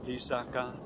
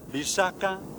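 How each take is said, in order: First: All three syllables are on a low tone. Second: One low syllable is followed by two high ones. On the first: It means a marsh or wet place. "in three low tones" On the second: It means a poison. "a low and two high tones"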